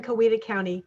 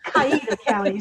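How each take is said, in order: First: "Coweta" said ko-WEE-da, with an o in the first syllable; corrected pronunciation. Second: "Coweta" said kai-EE-da, first syllable like "kai"; alternate local pronunciation. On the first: Guest corrects the host on a film title, "Coweta" as ko-WEE-da. It's pronounced different ways. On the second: Guest shows how some locals say it, "Coweta" as kai-EE-da. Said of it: "But sometimes they say". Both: Shown as a demonstration.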